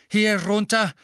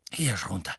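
First: Much higher and louder, breathless call; panting shout. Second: Panted, voiceless whisper; breathless whisper. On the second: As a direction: gasp it under your breath. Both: A narrator's reading. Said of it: "keuchte Mister Weasley".

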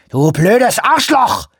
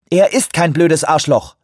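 First: High, slow, furious scream; screamed insult. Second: Firm, raised and louder rebuke. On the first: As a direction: hurl the insult at full volume. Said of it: "schrie Shoemaker". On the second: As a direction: set him straight, no room for argument. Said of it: "sagte sie sehr bestimmt". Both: A narrator's reading.

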